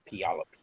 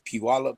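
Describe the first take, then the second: First: The name ends in an 'up' sound. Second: The name ends in an 'ah' sound. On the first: This is how locals say it. "they pronounce it Puyallup" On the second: This is how the spelling looks to an outsider. "I see it as Piwala"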